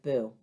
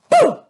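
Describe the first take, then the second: First: The word is said flat and dull. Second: The word is said loud and lively. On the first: The speaker calls it wrong. "you wouldn't go boo. That would be boring" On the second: The speaker calls it right. "You would have to go boo like that"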